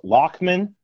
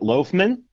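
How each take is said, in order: First: The first syllable does not sound like 'loaf'. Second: The first syllable sounds like 'loaf'. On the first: This is the original Irish pronunciation. "it actually should be pronounced Loughman" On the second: This is the family's usual pronunciation. "My dad pronounces it Loughman, like loaf of bread"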